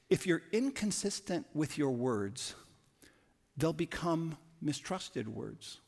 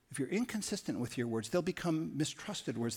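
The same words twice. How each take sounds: First: Slow emphatic axiom. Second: Said in the usual way. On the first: Shown as a demonstration. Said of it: "axiom said twice". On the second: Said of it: "axiom repeated".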